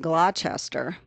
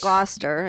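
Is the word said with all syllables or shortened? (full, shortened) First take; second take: full; shortened. First: The word is said with every written syllable sounded. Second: The word is said with its middle syllable dropped. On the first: This is how the spelling suggests it. The speaker calls it wrong. "if you actually looked at that word, it'd be like" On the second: This is how it is actually said. The speaker calls it right. "but it's"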